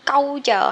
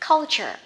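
First: The first syllable has no L sound. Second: The first syllable ends with an L sound. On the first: The speaker calls it wrong. "hay là câu chờ" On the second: The speaker calls it right. "Nó sẽ là chữ V ngược á, thêm chữ L cong vô culture"

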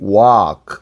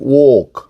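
First: It is said in an American accent. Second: It is said in a British accent. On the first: "미국식" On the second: "영국식"

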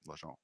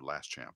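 First: The S and P sounds are left silent. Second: The S and P sounds are clearly pronounced. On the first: The speaker calls it right. "The S and the P are just about silent" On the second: The speaker calls it wrong. "an American looking at that would go last champ, and that would just make everybody cringe"

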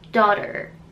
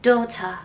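First: It is said with an American accent. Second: It is said with a British accent.

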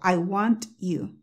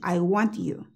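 First: Said slowly with the T sharply released. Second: Said smoothly with want and you joined together. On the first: "lo dije lentamente, pronunciando cada palabra, la T me explotó" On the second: "Yo la dije. Simplemente pega las dos palabras"

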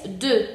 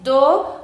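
First: The vowel is a front rounded 'eu' sound. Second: The vowel is a back rounded 'o' sound. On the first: The speaker calls it right. "es de" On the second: The speaker calls it wrong. "aquí no es do"

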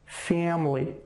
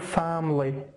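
First: The first vowel is drawn out before m. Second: The first vowel is short and plain. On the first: The speaker calls it right. "fam am family" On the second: The speaker calls it wrong. "مو family"

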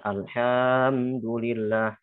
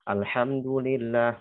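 First: The vowel is stretched to a double beat. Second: The vowel is held for a short beat. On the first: "dibaca dua harokat ... Itu maksudnya terlalu berlebihan" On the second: "kalau dia hanya satu harokat"

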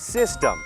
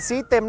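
First: The first syllable sounds like 'sis'. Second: The first syllable sounds like 'seed'. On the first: The speaker calls it right. "ออกเสียงแบบนี้ครับ" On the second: The speaker calls it wrong. "อย่าไปออกเสียงว่าซีดเต็มครับ"

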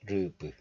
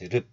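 First: The final p is audibly released. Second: The final p is closed off without release. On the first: The speaker calls it wrong. "not rup" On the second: The speaker calls it right. "just rup. Close the syllable like a glottal stop"

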